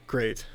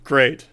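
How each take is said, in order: First: Quiet, flat deadpan great; a soft, resigned aside. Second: Said in the usual way. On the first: Real, not acted.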